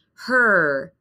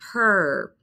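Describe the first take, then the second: Both takes have the same delivery.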